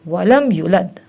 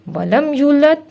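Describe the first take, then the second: First: The vowel after the y is short. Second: The vowel after the y is long. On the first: The speaker calls it wrong. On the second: The speaker calls it right.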